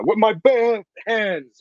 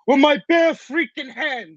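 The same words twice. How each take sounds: First: Slow, higher mock Rocky; lightly voiced Rocky Balboa; Rocky line. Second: Slow, much higher, louder Rocky voice; hammed-up Rocky growl of a line. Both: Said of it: "as Barry would say".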